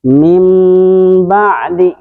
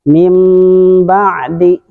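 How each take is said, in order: Both takes have the same delivery.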